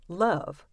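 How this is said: It is said in a Southern American accent. "someone from the South might pronounce it more like this"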